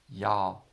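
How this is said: It is said in a Southern accent.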